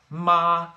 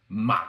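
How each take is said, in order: First: The pitch stays high and level. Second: The pitch dips down and then rises back. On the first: "higher than you think" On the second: "like running down to a canyon ... and then running back"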